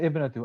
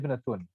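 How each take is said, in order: First: The word ends on a short u vowel. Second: The word ends with an added n sound. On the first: The word is the first part of a possessive phrase. The speaker calls it right. "Notice how I say ibnatu" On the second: The word is indefinite and stands alone. The speaker calls it wrong. "I don't say ibnatun"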